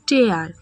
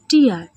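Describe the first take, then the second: First: The word rhymes with 'air'. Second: The word rhymes with 'ear'. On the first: To rip something apart. "দ্বিতীয় উচ্চারণ টেয়ার, টেয়ার মানে ছিঁড়ে ফেলা বা ফাঁড়া।" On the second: Drops of water from the eye. "প্রথমে টিয়ার, টিয়ার অর্থাৎ চোখের জল বা অশ্রু।"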